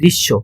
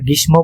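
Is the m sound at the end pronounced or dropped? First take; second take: dropped; pronounced. First: The m sound is dropped after the sh. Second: The m sound is pronounced after the sh. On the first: The speaker calls it right. "বলি গ্রীষ্ম, মটা বাদ দিই" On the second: The speaker calls it wrong. "কিন্তু উচ্চারণের সময় কি আমরা গ্রীষ্ম বলি"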